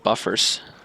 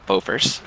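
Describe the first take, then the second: First: The first syllable sounds like 'buh'. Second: The first syllable sounds like 'boh'. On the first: The speaker calls it wrong. "not buffers" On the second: The speaker calls it right. "Bofors, not buffers"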